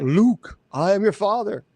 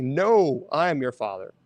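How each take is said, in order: First: Lightly voiced wrong version of the Vader line; misremembered quote. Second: Correct quote. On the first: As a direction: say it the way everyone misremembers it. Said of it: "It's not there". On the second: Retold or imitated. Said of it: "It's like".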